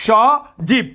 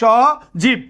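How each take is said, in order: The two takes are said the same way.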